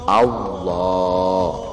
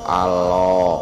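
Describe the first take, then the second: First: The L sound is clear and firm. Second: The L sound is slurred and unclear. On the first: The speaker calls it right. "harus Allah" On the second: The speaker calls it wrong. "tidak boleh pelo"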